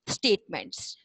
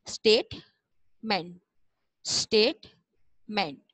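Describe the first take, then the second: First: Said in the usual way. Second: स्टेटमेंट slowly in two parts, state, then ment; broken into syllables. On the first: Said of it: "इसको मिला के एक साथ पढ़ेंगे". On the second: Shown as a demonstration. Teacher modelling how to break the word, syllable by syllable. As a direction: split स्टेटमेंट with a long pause before ment. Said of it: "इस तरह आप break करके पढ़ें".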